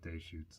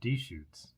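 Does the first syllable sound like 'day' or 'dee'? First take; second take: day; dee. First: The first syllable is said as 'day'. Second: The first syllable is said as 'dee'.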